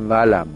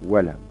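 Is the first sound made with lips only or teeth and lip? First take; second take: teeth and lip; lips only. First: The first sound uses teeth and lower lip. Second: The first sound uses both lips only. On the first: The speaker calls it wrong. "با دندون و لب میگن" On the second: The speaker calls it right. "باید با لب باشد"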